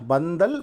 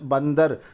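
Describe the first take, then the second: First: The word ends with an l sound. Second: The word ends with an r sound. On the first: "லகர எழுத்து" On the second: "ரகரம் வரணும்"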